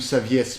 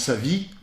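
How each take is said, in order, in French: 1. Le nom se termine par un 'es' final prononcé. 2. Le nom se termine sans syllabe finale prononcée.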